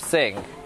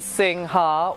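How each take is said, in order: First: The final 'ha' syllable is dropped. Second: The final 'ha' syllable is pronounced. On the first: This is the lazy everyday form of the name. "we're lazy and we don't say Ha, so it's just Sing" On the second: This is the full form of the name. "it is Sing Ha"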